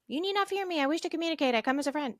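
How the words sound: It is said in a high-pitched voice.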